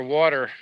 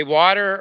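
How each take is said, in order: First: Water in the second of two contrasted pronunciations; water as "WAW-ter"; other way of water. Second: Water in the first of two contrasted pronunciations; water as "WAH-ter"; one way of water. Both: Shown as a demonstration. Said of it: "You say water or water".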